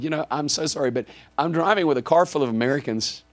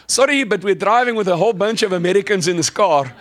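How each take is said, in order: First: Said in the usual way. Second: Put-on loud, higher, thick South African accent. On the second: Driver apologizing to a local woman, thick South African accent. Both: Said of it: "I put on my nice, thick South African accent".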